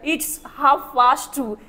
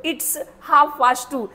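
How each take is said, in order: First: "half" said as "haaf", no L sound; silent L. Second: "half" said as "haaf", L left out, slow teacher demo; silent L. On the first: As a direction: drop the L in "half", slow and clear. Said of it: "इसमें एल silent होता है sir". ("half" में एल silent, धीरे और साफ़) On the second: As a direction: say "half" without the L, word by word. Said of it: "ये जो एल है ना वो साइलेंट होगा". ("half" बिना एल के, धीरे-धीरे बोलें) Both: Shown as a demonstration.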